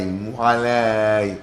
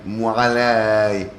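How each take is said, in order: No difference in how they are said.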